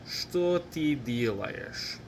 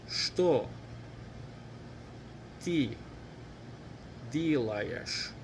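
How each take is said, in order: First: Whole question in one run, still slow and careful; faster, joined up. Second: One word at a time, long pauses between. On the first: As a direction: link the words without pauses, at learner pace. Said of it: "Now let's say it faster". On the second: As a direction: leave room for learners to repeat each word. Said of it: "Let's say it together". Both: Shown as a demonstration.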